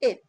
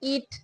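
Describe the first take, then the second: First: The vowel sounds like a short e. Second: The vowel sounds like a long ee. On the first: The speaker calls it right. "এটা এ এ sound" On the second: The speaker calls it wrong. "যদি কেউ বলে ইট, তা না"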